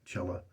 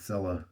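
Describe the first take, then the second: First: The word begins with a ch sound. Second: The word begins with an s sound. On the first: The speaker calls it right. "it's pronounced cella, cella, like cello" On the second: The speaker calls it wrong. "I have the habit of just saying Sella"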